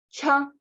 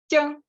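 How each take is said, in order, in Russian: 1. Придыхание есть. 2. Придыхания нет. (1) "но с придыханием" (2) "высокий тон без придыхания"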